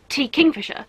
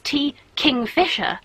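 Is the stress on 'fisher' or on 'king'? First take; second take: king; fisher. First: The stress falls on 'king'. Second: The stress falls on 'fisher'. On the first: The name is the bird's name. "to me, their name is T. Kingfisher, like named after the animal, the bird" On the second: The name sounds like 'king' plus 'Fisher'. "everyone I hear say their name says"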